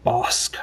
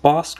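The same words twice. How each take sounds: First: "Bosk" with the syllable held long. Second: Said in the usual way. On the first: Shown as a demonstration. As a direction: draw out the vowel in "Bosk". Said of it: "hold the syllable like Bosk". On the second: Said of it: "Is it pronounced Bosk".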